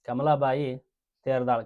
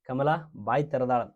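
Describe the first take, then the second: First: The pause falls after Kamalabai. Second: The pause falls after Kamala. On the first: It names a woman called Kamalabai with surname Teradal. The speaker calls it right. "ಕಮಲಾಬಾಯಿ ಆದ ನಂತರ ನೀವೇನು ಉಸಿರು ನಿಲ್ಲಿಸಿದ್ರಲ್ಲ" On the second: Kamala has opened her mouth and is sitting. The speaker calls it wrong. "ಕಮಲಾ ಅನ್ನಕ್ಕೆ ಬಾಯಿ ತೆರ್ಕೊಂಡ್ ಕುಂತಾಳ ಅನ್ನೋಂಗ್ ಆಗ್ತೈತೆ"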